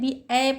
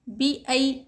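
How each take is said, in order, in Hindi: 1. दूसरा अक्षर एक सादा 'a' स्वर है। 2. दूसरा अक्षर एक 'ai' द्विस्वर है। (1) "यहाँ पर बहुत से लोग क्या करते हैं, बी ए पढ़ देते, ए नहीं आई।" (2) "सही तरीका क्या है"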